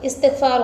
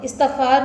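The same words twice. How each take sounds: First: इस्तग़फ़ार with an i after the t, "istighfaar"; correct pronunciation. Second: इस्तग़फ़ार with an a after the t, "istaghfaar"; wrong pronunciation. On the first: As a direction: say इस्तग़फ़ार as "is-tigh-faar". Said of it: "इस्तग़फ़ार होता है". (इस्तग़फ़ार का सही तलफ़्फ़ुज़, "इस्तिग़फ़ार") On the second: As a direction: say इस्तग़फ़ार wrongly as "is-tagh-faar". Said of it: "नहीं होता". (इस्तग़फ़ार का ग़लत तलफ़्फ़ुज़, "त" पर ज़बर) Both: Shown as a demonstration.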